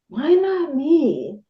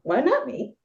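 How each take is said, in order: First: It is said in a defeated, complaining tone. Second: It is said in a confident, empowered tone. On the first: The speaker feels left out and hopeless. The speaker calls it wrong. "Instead of" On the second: Nothing stops the speaker from having it. The speaker calls it right. "just shift the energy around that question"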